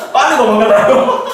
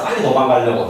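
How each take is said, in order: First: Laughing out high and loud; higher, louder laughing child answer. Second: Said in the usual way. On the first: Retold or imitated. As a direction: burst out laughing through the words.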